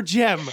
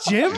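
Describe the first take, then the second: First: GEM said with an open short e. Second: GYM said with a short i. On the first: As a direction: say "gem" with the vowel of "hem". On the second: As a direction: say "gym" with the vowel of "him". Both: Shown as a demonstration. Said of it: "You said gym or gem?".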